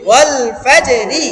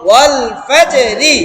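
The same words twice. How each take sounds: First: ওয়াল ফাজে রি again slow and even, each syllable separate. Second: ওয়াল ফাজে রি drawn out slowly, syllable by syllable. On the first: Teacher repeating the word slowly for students, syllable by syllable. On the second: Teacher modelling the word slowly for students, syllable by syllable. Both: Shown as a demonstration. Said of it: "একটা একটা করে বলেন".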